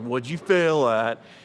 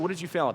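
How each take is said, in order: First: It sounds harsh and accusing. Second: It sounds warm and encouraging. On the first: The child is being blamed for failing. The speaker calls it wrong. "I don't mean like that" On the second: Trying something new and failing is praised. The speaker calls it right. "if you fail, that's good"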